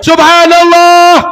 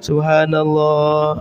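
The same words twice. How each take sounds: First: It is shouted very loudly. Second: It is said at a moderate volume. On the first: The speaker calls it wrong. "jangan teriak juga" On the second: The speaker calls it right. "zikir yang sedang itu sunnah"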